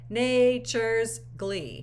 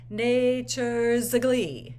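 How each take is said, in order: First: The words meet directly with no vowel between. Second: A short neutral vowel links the two words smoothly. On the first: The air is closed off and the line breaks. The speaker calls it wrong. "marring the legato" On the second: The air keeps flowing for a connected line. The speaker calls it right. "we're going to add in a, sh- a schwa"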